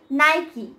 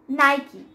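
First: The word ends with an 'ee' sound. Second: The same.

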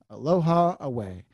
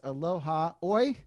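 First: The second word sounds like 'away'. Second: The second word sounds like 'oy'. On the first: The speaker calls it wrong. "I've heard people say away" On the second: The speaker calls it right. "So it's pronounced Aloha Oi"

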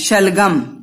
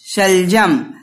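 First: The third consonant is a g sound. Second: The third consonant is a j sound. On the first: "तो यहां पर सलगम भी लिखते हैं" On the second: "श ल ज म"

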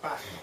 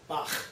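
First: The final consonant is softer and gentler. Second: The final consonant is harsh and strongly rasped. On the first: This is how it is said in Germany. "It's a softer sound, it's more Bach" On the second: This is how it is said in the speaker's own way. "because that's what we say it"

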